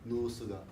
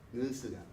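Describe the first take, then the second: First: The oo vowel is deep, from the chest. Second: The oo vowel is light, without chest resonance. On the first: The speaker calls it right. "it's a deeper oo" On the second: The speaker calls it wrong. "with that Japanese oo"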